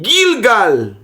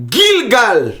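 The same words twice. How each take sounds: First: Gilgal repeated clearly, same even syllables; reading Gilgal. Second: Gilgal read out clearly, both syllables even. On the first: Teacher reads the root word again. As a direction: read Gilgal once more, clearly. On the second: Teacher reads the root word off the board. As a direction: say Gilgal as a clean reading. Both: Shown as a demonstration. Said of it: "Aqui eu posso ler aqui".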